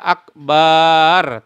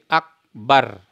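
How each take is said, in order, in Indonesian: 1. Vokal setelah b dibaca panjang. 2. Vokal setelah b dibaca pendek. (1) "Tidak boleh dibaca akbar" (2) "tapi akbar"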